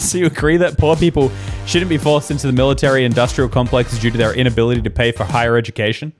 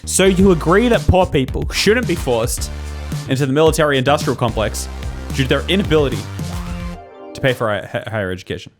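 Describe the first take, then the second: First: It is read at normal speed. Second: It is read slowly.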